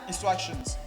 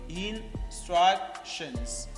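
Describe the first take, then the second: First: The word is said quickly. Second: The word is said slowly. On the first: "Speak fast" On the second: "Speak slowly"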